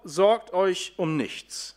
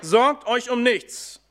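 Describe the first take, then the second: First: Casual quote. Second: „Sorgt" betont, langsam und lauter; „Sorgt euch um nichts" langsam und eindringlich zitieren; emphatic quote. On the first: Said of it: "Paulus sagt ganz salopp". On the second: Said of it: "Was machen wir denn?". (nachdrücklich, langsam, mit Betonung auf „Sorgt") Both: Retold or imitated.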